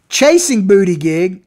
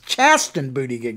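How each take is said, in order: First: The first name sounds like the word chasing. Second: The first name sounds like the word chasten. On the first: The speaker calls it wrong. "I keep mispronouncing it" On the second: The speaker calls it right. "It's Chasten Buttigieg"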